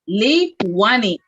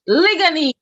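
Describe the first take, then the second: First: The middle consonant is a w sound. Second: The middle consonant is a g sound. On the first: This is the original Taino name. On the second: This is the modern name.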